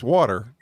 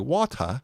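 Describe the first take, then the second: First: It is said in a natural American accent. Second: It is said in an English accent.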